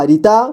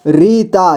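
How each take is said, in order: First: Said in the usual way. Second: Rita drawn out as री-ता; syllable by syllable. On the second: Shown as a demonstration. Teacher showing beginners how to read Rita, syllable by syllable. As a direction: give each half of Rita its own long beat. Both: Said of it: "जोड़ जोड़ करके ही पढ़ना होगा".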